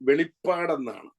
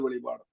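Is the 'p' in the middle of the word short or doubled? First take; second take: doubled; short. First: The middle 'p' sound is long and doubled. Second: The middle 'p' sound is short and single. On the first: The speaker calls it right. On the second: The speaker calls it wrong. "വെളിപാട് വെളിപാട് അങ്ങനല്ല"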